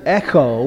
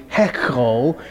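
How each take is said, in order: First: Echo, starting straight on the vowel; no initial H. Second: Hecho, breathed h before the first vowel; initial H. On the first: Teacher gives the present tense, echo with no initial h. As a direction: say echo without an h at the front. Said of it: "The H on the front couldn't be there". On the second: Teacher shows what the word wants to be, hecho with initial h. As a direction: say hecho with an h at the front. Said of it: "that H on the front". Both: Shown as a demonstration.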